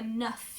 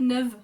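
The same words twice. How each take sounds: First: The word ends with a clear F sound. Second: The word ends with a soft V sound. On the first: "When I say it individually, the neuf becomes a neuf, you hear the F" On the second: "when you actually say it all together, it becomes kind of a V sound"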